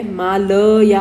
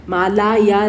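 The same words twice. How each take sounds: First: मालया said slowly with a short middle a, ma-la-YA, stressed; correct form. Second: मालाया with a long aa in the middle, the wrong way; wrong form. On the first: Teacher giving students the correct short form मालया, slowly and with stress. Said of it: "मालाया नाहीये, मालया आहे". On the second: Teacher showing students the mistaken form मालाया with a long middle aa. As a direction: say मालाया stretching the second syllable to maa-LAA-ya. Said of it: "मालाया नाहीये". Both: Shown as a demonstration.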